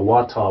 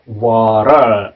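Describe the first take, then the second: First: British accent with a clear t sound. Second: American accent with a quick flapped t. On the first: "영국식 영어는 water, 뭐 이 정도로 하죠" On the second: "미국 발음은, 요 T가 있지 않습니까? T로 발음이 안 되죠?"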